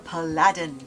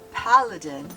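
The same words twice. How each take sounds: First: The word is said to sound like Aladdin. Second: The word does not sound like Aladdin. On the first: The speaker calls it wrong. "I read it like the character name Aladdin" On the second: The speaker calls it right. "I did not call it a paladin"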